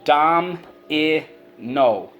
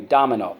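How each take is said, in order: First: "Dom-i-no" very slowly, each syllable held apart. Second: Said in the usual way. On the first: Shown as a demonstration. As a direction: sound out dom, i, no with gaps. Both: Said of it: "let's go".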